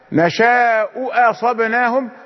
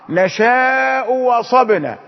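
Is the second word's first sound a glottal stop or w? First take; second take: glottal stop; w. First: The second word begins with a glottal stop. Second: The second word begins with a w sound. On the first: "بدل نشاء أصبناهم" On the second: "إبدال واوا لأن بسبب الضم"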